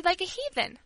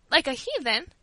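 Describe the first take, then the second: First: "like a heathen" high, falling at the end; firm confirmation. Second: "Like a heathen?" raised as a disbelieving question; shocked cry. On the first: Girl confirms her charge to the servant, firmly. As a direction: repeat it as a settled fact. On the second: Old servant repeats the girl's accusation, shocked. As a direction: echo the accusation, taken aback. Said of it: "cried poor Teresa". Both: A narrator's reading.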